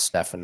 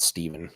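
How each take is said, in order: First: The name is said as Stefan. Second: The name is said as Steven. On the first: The speaker calls it right. "his name is pronounced Stefan" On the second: The speaker calls it wrong. "not Steven"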